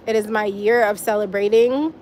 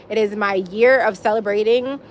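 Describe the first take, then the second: No difference in how they are said.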